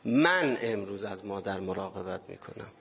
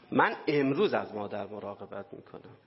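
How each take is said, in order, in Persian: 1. تکیه روی کلمه اول است. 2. تکیه روی کلمه «امروز» است.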